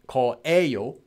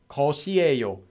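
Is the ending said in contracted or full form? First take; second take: contracted; full. First: The "shi" syllable is dropped before "eyo". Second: An extra "shi" syllable is pronounced before "eyo". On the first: "most commonly it will just become this" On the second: "the full original form"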